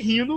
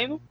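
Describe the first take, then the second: First: It is said with a Brazilian accent. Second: It is said with an American accent.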